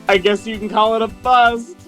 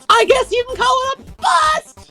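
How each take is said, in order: First: It is said in a normal speaking voice. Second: It is said in a put-on Daisy voice.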